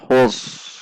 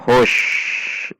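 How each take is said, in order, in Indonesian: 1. Huruf akhirnya berbunyi s tebal dan berat. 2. Huruf akhirnya berbunyi sh. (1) "bukan khus, itu shod" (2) "Juga bukan hush, itu shin"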